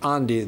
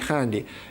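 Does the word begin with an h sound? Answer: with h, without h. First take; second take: without h; with h. First: The word starts without an h sound. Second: The word starts with an h sound. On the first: "in the Spanish way" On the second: "do pronounce the, the starting H"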